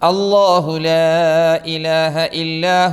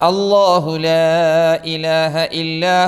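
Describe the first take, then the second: First: The long vowels are stretched out long. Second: The same.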